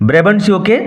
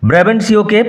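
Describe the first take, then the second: The two takes are said the same way.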